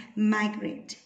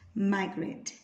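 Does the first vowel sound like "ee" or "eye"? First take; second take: eye; eye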